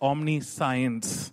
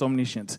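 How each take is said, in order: First: The middle is said like the word 'science'. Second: The middle is said as a short 'shuh' sound. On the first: The speaker calls it wrong. "it's spelled as omniscience" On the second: The speaker calls it right. "but pronounced as omniscience"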